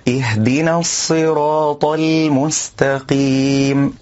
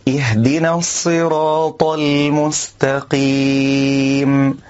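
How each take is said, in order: Both takes have the same delivery.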